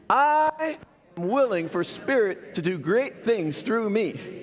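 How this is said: It is said with strong, heartfelt feeling.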